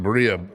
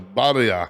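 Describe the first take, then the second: First: The word is said with an English pronunciation. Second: The word is said with a Spanish pronunciation. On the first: The speaker calls it wrong. "we're not even saying it right" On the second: The speaker calls it right. "my Mexican partner, uh, Badia, or whatever they say"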